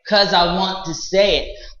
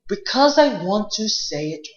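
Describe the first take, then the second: First: The first word is shortened to one syllable. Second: The first word is said in full, two syllables. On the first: This is casual street speech. "the street English will it can just have the word cause" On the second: This is formal, correct speech. "formal English will have the word because"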